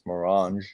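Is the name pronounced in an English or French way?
French. The name is pronounced with French sounds. "the French way"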